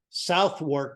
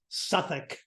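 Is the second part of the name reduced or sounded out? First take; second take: sounded out; reduced. First: Both parts are sounded out as spelled. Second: The name is reduced to a short 'Suthuk'. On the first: "is how it's spelled" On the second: "if you're in English, it's Suffolk"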